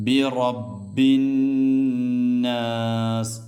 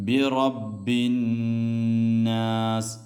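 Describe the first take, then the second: Both takes have the same delivery.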